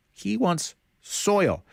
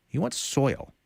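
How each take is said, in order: First: "He wants soil" said higher and slowly, drawn out in disbelief; slow and marvelling on "soil"; amazed emphasis. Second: Said in the usual way. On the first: Shown as a demonstration. Preacher to the class, marvelling at Naaman's odd request.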